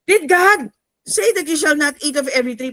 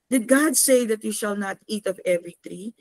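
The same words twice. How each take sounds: First: It is hissed in an angry voice. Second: It is asked as a mild, plain question.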